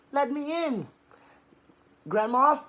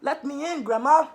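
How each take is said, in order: First: High squeaky wolf faking sweetness; squeakiest voice. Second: Higher, louder merry call; merry call at the door; called merrily. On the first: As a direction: squeak it out to trick Grandma. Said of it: "he said in his squeakiest voice". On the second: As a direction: call out happily to Grandma. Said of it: "she called merrily". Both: Acted.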